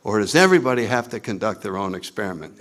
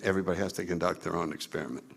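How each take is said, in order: First: Said in the usual way. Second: Fast, low, much softer answer; quick low aside. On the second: Real, not acted. Speaker answering his own question, quick quiet aside. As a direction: toss the answer off quickly under the voice.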